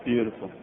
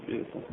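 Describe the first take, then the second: First: Said in the usual way. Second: Beautiful, said much softer, almost to himself; Beautiful. barely voiced, fading out; soft echo. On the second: Real, not acted. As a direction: let Beautiful. fall away into a hush.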